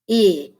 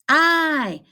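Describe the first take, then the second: First: A short vowel sound, as in 'it'. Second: A long vowel sound, like the letter's name. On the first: "The short vowel I says I" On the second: "the long vowel I say? I, because it screams its name"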